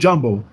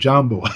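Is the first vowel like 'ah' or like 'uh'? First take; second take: uh; ah. First: The first vowel sounds like 'uh'. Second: The first vowel sounds like 'ah'. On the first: The speaker calls it wrong. "you don't say Jumbo" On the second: The speaker calls it right. "you say Jambo"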